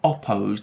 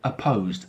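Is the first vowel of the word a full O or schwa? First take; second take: full O; schwa. First: The first vowel is a full O sound. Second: The first vowel is a weak schwa sound. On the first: The speaker calls it wrong. "It's not opposed. We're not pronouncing the vowel as o" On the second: The speaker calls it right. "So that's the schwa sound"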